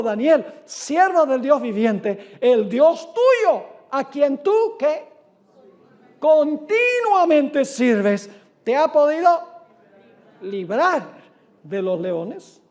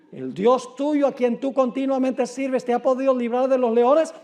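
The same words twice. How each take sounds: First: Slow, loud and high, calling down into the pit; anguished calling out. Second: Said in the usual way. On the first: Acted. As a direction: stretch each word out in a grieving cry. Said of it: "llamó a voces ... con voz triste". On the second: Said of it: "Sigue diciendo".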